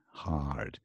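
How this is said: It is said with an American accent. "U S going to be hard"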